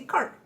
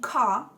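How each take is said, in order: First: It is said with an Irish accent. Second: It is said with a British accent. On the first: "in Irish we say cart" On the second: "instead of saying car"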